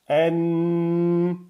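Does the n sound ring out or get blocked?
rings out. The n hums clearly through the nose. "là vous entendez bien"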